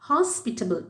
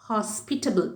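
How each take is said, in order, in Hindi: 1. Stress 'pit' syllable पर है। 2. Stress 'pit' syllable पर है।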